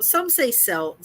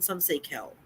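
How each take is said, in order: First: "Celt" with a soft s sound, like sell. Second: "Celt" with a hard k sound, like kelt. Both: Shown as a demonstration. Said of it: "I've heard it both ways".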